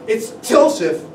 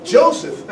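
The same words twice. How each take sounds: First: Calls the name out loud and harsh; a hard, resentful announcement at the door. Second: High, bright burst of the name; joyful cry. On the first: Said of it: "Loudly, harshly, she called into the room". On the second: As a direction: she cries his name, overjoyed. Mary greets him joyfully. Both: Acted.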